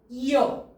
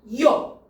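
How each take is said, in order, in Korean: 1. 두 모음이 빨리 이어져서 한 소리가 돼요. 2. 두 모음이 빨리 이어져서 한 소리가 돼요.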